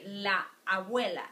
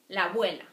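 First: The two words are said separately, vowels not joined. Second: The two words are joined into one flowing sound. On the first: The speaker calls it wrong. "we won't say la abuela because that's not the way you speak" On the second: The speaker calls it right. "You just link those two"

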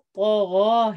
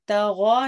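First: The first consonant is heavy and full. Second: The first consonant is light and thin. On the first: The speaker calls it right. "तगौ है" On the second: The speaker calls it wrong. "तगौ नहीं है"

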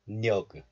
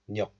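First: The final consonant is released as a full g. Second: The final consonant is closed and not released. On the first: The speaker calls it wrong. "If you release this G sound fully, then you will pronounce this like 녀그" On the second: The speaker calls it right. "we apply syllable closure, so this is just 녀"

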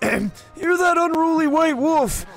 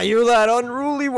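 First: It is said in an old man voice. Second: It is said in his normal voice.

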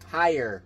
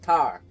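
First: The word is said in a more neutral accent. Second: The word is said in the usual local accent. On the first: "I hate saying it that way. I sound weird" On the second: "And yes, I said tire"

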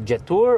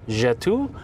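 First: The name is said with a plain English sound. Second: The name is said with a French sound. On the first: "Is it really Jetour" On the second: "is it like French, like Jetour?"

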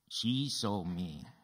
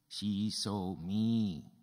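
First: The stress is on the word she. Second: The stress is on the word me. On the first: It was she, not someone else, who saw. "Who saw you?" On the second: It was me, not someone else, who was seen. "Who did she see?"

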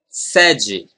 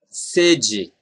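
First: The first vowel is an open e sound. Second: The first vowel is a closed e sound. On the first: "what if you pronounce this E open as in pet?" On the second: "this first E is very similar to the letter E in they"

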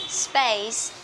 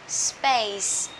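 The two takes are said the same way.

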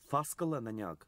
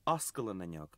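First: The first word begins with an f sound. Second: The first word begins with a vowel sound. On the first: This is the Ulster dialect form. "The pronunciation Foscal is particular to Ulster" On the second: This is the form used in other dialects. "In all other dialects, Oscal is used"

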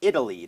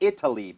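First: The t is a soft d-like flap. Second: The t is a clear t sound. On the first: "เป็น Italy ได้" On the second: "ก็เปลี่ยน Italy"

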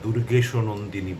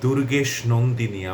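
First: An 'o' vowel is heard after 'durgesh'. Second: No vowel is heard after 'durgesh'. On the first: The speaker calls it wrong. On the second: The speaker calls it right.

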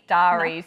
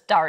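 First: The first syllable is drawn out long. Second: The first syllable is kept short. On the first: The speaker calls it wrong. "it's too long in the first syllable" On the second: The speaker calls it right. "It's dairies"

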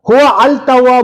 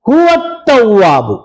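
First: The article's l sound is clearly pronounced. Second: The article's l sound is absorbed into the t. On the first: The speaker calls it wrong. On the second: The speaker calls it right.

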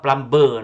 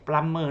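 First: The b in the middle is pronounced. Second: The b in the middle is silent. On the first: The speaker calls it wrong. "not plumber" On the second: The speaker calls it right. "say plumber"

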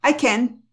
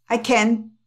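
No difference in how they are said.

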